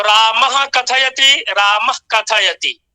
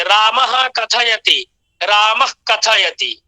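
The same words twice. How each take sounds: First: Slow रामः with a full "अह" visarga from the throat; रामः कथयति with a long clear ह after रामः. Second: रामः with the visarga halved and pushed back to the tongue root before कथयति; slow रामः कथयति, short back-tongue breath after रामः; jihvamuliya demo. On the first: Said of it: "पूरा मह, अह की ध्वनि आ रही है". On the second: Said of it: "उच्चारण सुनिए". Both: Shown as a demonstration.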